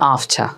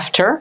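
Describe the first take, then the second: First: It is said with a British accent. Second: It is said with an American accent. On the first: "ব্রিটিশরা বলে আফছা" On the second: "আমেরিকানরা বলে আফটার"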